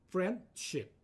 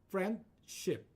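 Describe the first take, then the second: The two takes are said the same way.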